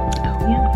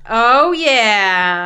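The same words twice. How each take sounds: First: It is said quietly. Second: It is said loudly.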